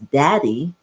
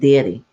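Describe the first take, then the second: First: The first vowel sounds like the vowel in 'dad'. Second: The first vowel sounds like the vowel in 'day'. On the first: This is how most people say it. "which I think most people pronounce as daddy" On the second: This is how the speaker's family said it. "we grew up saying daddy, spelled D A I D Y"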